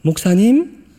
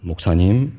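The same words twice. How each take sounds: First: Higher, questioning practice call; nervous second try. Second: Low, tentative mock practice call; tentative rehearsal. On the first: Acted. Young evangelist practising again outside the pastor's office, nervous questioning. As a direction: try it out as an uncertain, rising question. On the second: Young evangelist practising outside the pastor's office, tentative rehearsal. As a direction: rehearse it cautiously, pitched low. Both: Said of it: "앞에서 연습을 하는 거죠".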